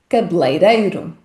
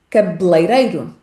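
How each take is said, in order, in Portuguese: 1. A primeira vogal E é omitida por completo. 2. A primeira vogal E é omitida por completo.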